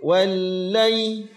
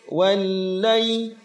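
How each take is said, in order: No difference in how they are said.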